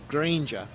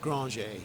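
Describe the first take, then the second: First: The name is said with English sounds. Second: The name is said with French sounds.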